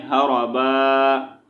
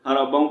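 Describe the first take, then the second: First: "हरबा" slowly, final vowel held long; pausal reading. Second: "हरबाऊ" with the ending sounded; non-pausal reading. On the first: Teacher showing how to read at a stop, pausal "हरबा". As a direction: stop on a drawn-out open aa in "हरबा". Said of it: "वक़्फ़ की सूरत में हमने क्या पढ़ना है". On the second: Teacher showing the form without a stop, connected "हरबाऊ". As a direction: run on quickly into an oo ending, "हरबाऊ". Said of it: "वक़्फ़ नहीं करेंगे तो हरबाऊ पढ़ेंगे". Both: Shown as a demonstration.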